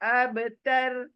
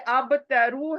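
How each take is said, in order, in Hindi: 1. शब्द एक पक्के व्यंजन पर खत्म होता है। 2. शब्द एक छोटे स्वर पर खत्म होता है। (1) "मैं स्टॉप कर रही हूँ इसलिए अब तर" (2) "ये अब तरु है"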